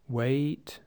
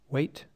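First: The vowel is drawn out long. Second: The vowel is short and clipped. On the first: The speaker calls it wrong. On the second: The speaker calls it right.

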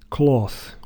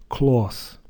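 The two takes are said the same way.

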